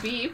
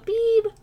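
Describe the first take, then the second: First: The word is said at a normal pitch. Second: The word is said at a high pitch. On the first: The speaker calls it wrong. "Not beep" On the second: The speaker calls it right. "It sounds more like high pitch"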